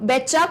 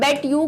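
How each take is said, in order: First: The words blend into one, ending in 'cha'. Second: The two words are said separately, ending in 'you'. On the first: "या बोलते बोलते ये चा कर देते हैं" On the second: "बेट यू का मतलब होता है मैं तुमसे शर्त लगाती हूँ"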